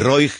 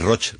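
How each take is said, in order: First: The name ends in a 'g' sound. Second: The name ends in a 'ch' sound. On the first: It is read as it is written. "tú lo lees como se debe leer" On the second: This is how it is pronounced locally. "que es Roch, realmente"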